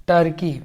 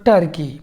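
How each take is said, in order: Both takes have the same delivery.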